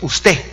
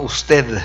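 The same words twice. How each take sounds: First: The final D sound is dropped. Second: The final D sound is pronounced. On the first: "los guatemaltecos no pronunciamos la D" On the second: "no usted"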